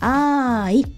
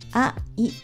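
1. 母音はつながって一つの音として発音します。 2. 二つの母音は別々の音として発音します。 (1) "あいという感じですね" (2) "あいという感じではなくて"

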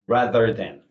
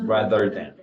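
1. th 소리는 분명해요. 혀를 밖으로 내밀어요. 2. th 소리는 분명해요. 혀를 밖으로 내밀어요.

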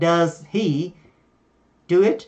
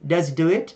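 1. Does và he được nói như hai từ riêng biệt. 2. Does nối vào he, và âm h bị bỏ. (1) "thông thường chúng ta sẽ không nghe là does he do it" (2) "họ sẽ nối chữ does với âm giờ đó vào chữ he"

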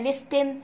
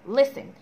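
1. صوت t بيتنطق في النص. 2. مفيش صوت t بيتنطق في النص. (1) "مش بقولها لستن" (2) "خلي بالك هنا ان التي سايلنت مش بتتنطق"

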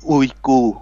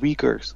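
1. คำนี้ขึ้นต้นด้วยเสียง 'ooy' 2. คำนี้ขึ้นต้นด้วยเสียง 'wee' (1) "คนไทยเรียกว่า" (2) "ชาวฝรั่งเขาเรียกว่า"

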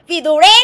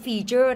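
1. ออกเสียงสามพยางค์ fee-too-ray 2. ออกเสียงสองพยางค์ fee-chur (1) "บางคนอ่านว่าอะไรคะฟีตูเร" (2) "อันนี้อ่านว่า"

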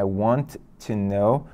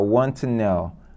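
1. Os dois sons de t são pronunciados separadamente. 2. Os dois sons de t se fundem em um só. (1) "já tem o T de volta" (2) "linkando com o T de to"

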